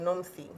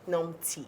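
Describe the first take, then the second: First: The middle consonant is a th sound. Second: The middle consonant is a plain t. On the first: The speaker calls it wrong. "don't say Pastor Nomthi, because that's the Nigerian way" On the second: The speaker calls it right. "So the South African way, because she's South African, is Nomti"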